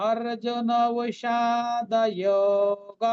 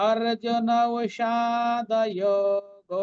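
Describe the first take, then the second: The two takes are said the same way.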